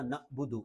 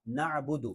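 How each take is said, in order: First: "نعبد" broken by a glottal catch; hamza-like jerk. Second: "نعبد" with a flowing throaty ain; ain from mid-throat. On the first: Teacher shows the mistake, "نعبد" with a jerk. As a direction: jerk to a stop after na in "نعبد". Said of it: "حمزہ کی طرح جھٹکا بھی نہیں دینا". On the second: Teacher models the correction, "نعبد" with mid-throat ain. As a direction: voice the ain in "نعبد" without jerking. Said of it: "حلق کے درمیان سے ادا ہوتا ہے". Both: Shown as a demonstration.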